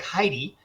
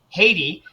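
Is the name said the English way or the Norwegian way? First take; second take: English; Norwegian. First: The name is said the English way. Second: The name is said the Norwegian way. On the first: The speaker calls it wrong. "your name looks like Heidi" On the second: The speaker calls it right. "actually pronounced Haiti"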